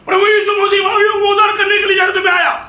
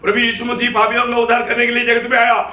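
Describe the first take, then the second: First: It is said with more force and energy. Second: It is said in a plain, normal voice. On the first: "और शक्ति से बोलेगा" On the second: "अभी मैं बोलेगा"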